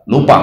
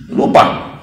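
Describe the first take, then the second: First: Said in the usual way. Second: Whispered. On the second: Shown as a demonstration. Preacher whispering the word's meaning to the congregation. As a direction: breathe the word out in a whisper.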